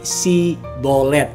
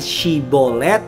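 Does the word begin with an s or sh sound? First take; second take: s; sh. First: The word begins with a plain s sound. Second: The word begins with an sh sound. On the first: The speaker is an outsider who cannot say it properly. The speaker calls it wrong. "tidak dapat melafalkan dengan baik, alias keluarnya jadinya bukan Shibolet tapi Sibolet. Nggak ada y-nya di sana" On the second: This is the password as it should be said. The speaker calls it right. "bukan Shibolet"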